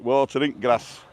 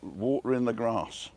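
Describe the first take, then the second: First: It is said in a Barnsley accent. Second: It is said in the speaker's plain accent.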